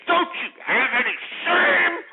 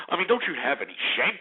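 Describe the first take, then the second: First: High, drawn-out screaming demand; outraged shout. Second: Said in the usual way. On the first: Real, not acted. Host shaming the welfare caller, outraged shout. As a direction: shout it out, stretching the last word.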